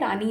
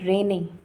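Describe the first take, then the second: First: The first vowel sounds like 'ah'. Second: The first vowel sounds like 'ay'. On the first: This is a memory aid students used. The speaker calls it wrong. "लेकिन इसको हम लोग रानी बोल देते थे" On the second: This is the proper name of the reagent. The speaker calls it right. "ये रेने है"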